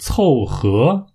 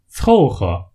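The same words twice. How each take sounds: First: The second syllable carries its full tone. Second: The second syllable is light, in neutral tone. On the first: The speaker calls it wrong. "而不是凑合，凑合是不对的" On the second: The speaker calls it right. "在这里要读作轻声"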